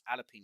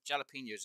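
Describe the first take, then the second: First: The word starts without a J sound. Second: The word starts with a clear J sound. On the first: "and yet everyone else says jalapenos" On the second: "it says there's a J"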